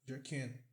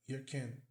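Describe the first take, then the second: The two takes are said the same way.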